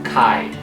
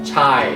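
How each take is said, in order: First: The word begins with a k sound. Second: The word begins with a ch sound. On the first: The speaker calls it right. "is pronounced as chi" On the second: The speaker calls it wrong. "not chi or chai, as in like China"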